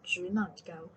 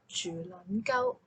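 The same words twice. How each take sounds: First: Zhu Nan Gao sung in correct Cantonese tones. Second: Zhu Nan Gao sung off its tones, slow; slow mistoned Zhu Nan Gao; out-of-tone Cantonese. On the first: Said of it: "Like a Cantonese hymn". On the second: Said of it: "so out of tone that it sounds like". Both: Shown as a demonstration.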